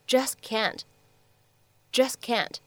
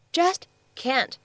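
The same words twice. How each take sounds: First: "just can't" run together with the t of just dropped; lost plosive. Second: "Just can't" as two words, each fully sounded; separated words. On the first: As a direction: link "just can't" as juss-can't. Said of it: "会有一个失去爆破的处理". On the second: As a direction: say "Just", pause, then "can't". Words shown separately before linking. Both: Shown as a demonstration.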